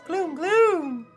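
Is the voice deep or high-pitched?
high-pitched. The voice is very high-pitched. The speaker calls it right. "Gloom has a very high-pitched voice"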